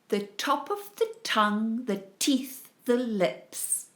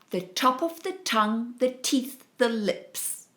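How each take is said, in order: First: It is said at a moderate pace. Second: It is said a bit faster.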